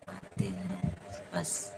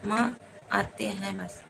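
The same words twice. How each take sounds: First: Much lower and slow, dragged out; like a slowed-down recording; deep slowed voice. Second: Said in the usual way. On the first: Pretend. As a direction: drop the voice way down and drawl it. Repeats phrase in distorted voice.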